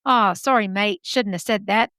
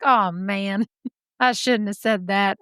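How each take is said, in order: First: Put-on a sheepish Aussie apology in an Australian accent. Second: A hint of a Southern accent, laughing it off. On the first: Guy who just got punched apologizes in a mock Australian accent. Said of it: "they're Australian". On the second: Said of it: "I know they're not Southern".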